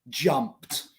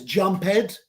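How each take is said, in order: First: The ending adds no extra syllable. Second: The ending is said as an extra syllable. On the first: The speaker calls it right. "we don't pronounce the E" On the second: The speaker calls it wrong. "No es jumped. Jumped no existe"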